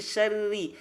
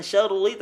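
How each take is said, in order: First: SYARRI with light trilled RR and clear I; thin R. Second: SYARRI with heavy, darkened RR, like syaurli; wrongly thick R. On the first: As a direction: keep the double R thin in SYARRI. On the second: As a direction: thicken the doubled R in SYARRI by mistake. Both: Shown as a demonstration. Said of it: "dibaca tipis".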